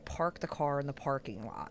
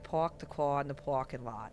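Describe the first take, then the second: First: The r sounds are clearly pronounced. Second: The r sounds are dropped, New York style. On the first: "I pronounce the aw, the R" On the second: "when you say it in New York"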